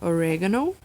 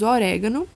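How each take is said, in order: First: It is said with an English pronunciation. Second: It is said with a Portuguese pronunciation. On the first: "só com um sotaque aí diferente" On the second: "Temos orégano"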